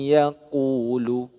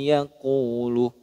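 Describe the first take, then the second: The two takes are said the same way.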